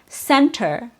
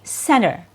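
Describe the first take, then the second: First: The T after the N is fully pronounced. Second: The T after the N is dropped. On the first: It sounds proper. "the correct and proper way to say it with a true T sound" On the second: It is casual everyday speech. "the T is typically removed"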